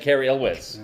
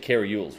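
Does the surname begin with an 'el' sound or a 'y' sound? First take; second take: el sound; y sound. First: The surname begins with an 'el' sound. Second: The surname begins with a 'y' sound. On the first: The speaker calls it right. "His name is actually Kerry Elwes" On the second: The speaker calls it wrong. "for years we've said Kerry Yules"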